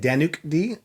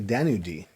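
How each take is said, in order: First: A k sound ends the first name. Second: No k sound ends the first name. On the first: The speaker calls it wrong. "A lot of people have been saying" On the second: The speaker calls it right. "It's actually Danu D. So the C is actually silent"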